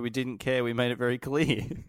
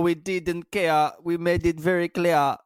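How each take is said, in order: First: It is said in the speaker's ordinary accent. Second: It is said in a put-on Jamaican accent.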